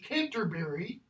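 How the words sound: It is said in an American accent, all syllables kept. "Modern American English"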